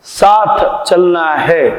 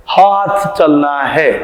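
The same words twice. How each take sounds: First: साथ said slowly with a clear s; correct s. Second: हाथ said slowly, h replacing the s of साथ; toothless h for s. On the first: Shown as a demonstration. Teacher shows the intended word, slow clear s. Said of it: "वो बोलना चाहते हैं स". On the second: Retold or imitated. Teacher imitates a toothless grandpa, h instead of s. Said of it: "और निकल जाता है ह".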